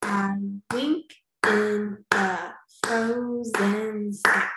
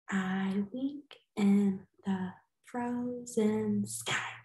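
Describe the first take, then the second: First: Slow, each syllable a beat; I wink in the frozen sky, slow in beats; clapped syllables. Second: Softer, slow, counting beats; I wink in the frozen sky, soft and slow; softer recount. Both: Shown as a demonstration. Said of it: "Let's check".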